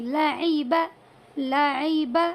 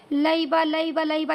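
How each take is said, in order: First: لعیبہ said slowly, every letter drawn out clearly; careful correct reading. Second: لعیبہ gabbled fast, letters run together; rushed wrong reading. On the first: Teacher correcting the rush, لعیبہ slow and careful. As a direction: pronounce لعیبہ slow and distinct, each sound full. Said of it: "نہیں". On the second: Teacher mimicking a student rushing لعیبہ fast. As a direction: rattle off لعیبہ carelessly, too quick. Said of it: "ایسا نہ ہو کہ بھائی بس یوں ہی جلدی جلدی سے". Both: Shown as a demonstration.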